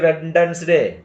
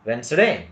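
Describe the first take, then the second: First: The D sound is pronounced. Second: The D sound is silent. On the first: The speaker calls it wrong. "We don't say Wednesday" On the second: The speaker calls it right. "ಅಲ್ಲಿ D ಉಚ್ಚಾರಣೆ ಆಗುವುದಿಲ್ಲ"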